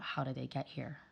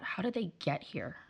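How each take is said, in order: First: Hushed and lower, puzzled head-shake tone; disapproving inner question. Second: Quiet wondering to herself, pitch lifting slightly; curious inner question. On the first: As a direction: ask it very quietly, baffled by bad parenting. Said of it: "every time I saw bad parental behavior". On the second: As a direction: ask it softly, admiring and curious. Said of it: "every time I saw good parental behavior". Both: Retold or imitated.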